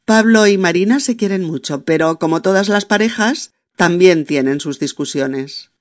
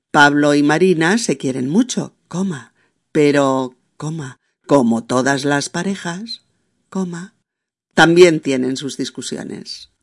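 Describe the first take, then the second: First: Said in the usual way. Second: Dictation pace, naming each comma; teacher spelling out the commas; dictating with every comma spoken. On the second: Shown as a demonstration. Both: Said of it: "O bien".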